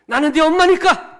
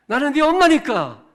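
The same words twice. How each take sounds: First: The mother who ends the argument; mom's shouted trump card. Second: High, loud declaration; mom's shouted trump card. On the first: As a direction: shout it high and loud. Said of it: "좀 괜찮았습니까?". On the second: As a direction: slam it down as the final word. Repeat of mom line. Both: Acted. 아이에게 말싸움을 끝내는 엄마처럼, 높고 크게 외치듯.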